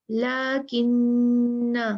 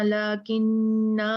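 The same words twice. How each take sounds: First: लकिन्ना very slow, the ना drawn out too long; the common mistake students make, drawn out; wrong stretched reading. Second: लकिन्ना with a short final ना, not stretched; the right way after the mistake, said plainly; correct short reading. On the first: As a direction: overstretch the final ना of लकिन्ना as a mistake. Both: Shown as a demonstration. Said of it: "इसको ऐसे नहीं पढ़ना".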